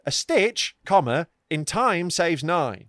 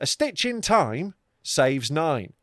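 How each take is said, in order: First: There is a break right after stitch. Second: Stitch runs straight on into in time.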